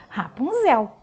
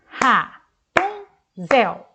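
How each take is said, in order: First: Said in the usual way. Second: "Rapunzel" said very slowly, loud, RA-PUN-ZEL; clapped syllables. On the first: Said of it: "Muito bem". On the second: Shown as a demonstration. Teacher claps the name for the pupils, slow and loud. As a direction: clap out each syllable of "Rapunzel". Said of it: "Fala batendo palma".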